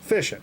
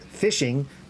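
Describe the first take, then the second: First: The word is said casually, with a clipped ending. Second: The word is said carefully, with a full ending. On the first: It sounds relaxed, like talk among peers. "that's not the proper way to say that" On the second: It sounds overly proper and prissy. "if you say it fishing, you sound like a fu-"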